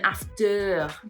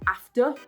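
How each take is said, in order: First: The ending is a strong, drawn-out er sound. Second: The ending is a short, light uh sound. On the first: The speaker calls it wrong. "than after" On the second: The speaker calls it right. "It's better for you to say after"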